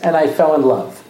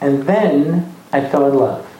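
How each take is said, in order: First: It is said flatly, like a man. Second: It is said dreamily, like a girl.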